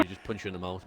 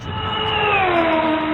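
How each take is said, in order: First: Said in the usual way. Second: High, loud, slow mock tough-guy shout. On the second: Mocking a tough Aussie bloke, loud high shout. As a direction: bellow it like a hard man squaring up.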